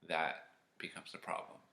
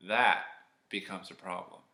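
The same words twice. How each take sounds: First: That becomes a problem whispered, no voice; whispered teaser of That becomes a problem; ominous whisper. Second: Said in the usual way. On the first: Shown as a demonstration. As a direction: hush it like a secret warning.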